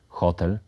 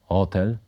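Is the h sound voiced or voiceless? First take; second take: voiceless; voiced. First: The h sound is voiceless. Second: The h sound is voiced. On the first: The speaker calls it right. "wymawiane z bezdźwięcznym ch" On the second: The speaker calls it wrong. "W języku ukraińskim wyrazy te są wymawiane z dźwięcznym ch"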